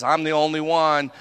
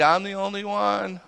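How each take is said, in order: First: Said in the usual way. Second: Venting. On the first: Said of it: "he says". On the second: Retold or imitated. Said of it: "Remember, he's venting it".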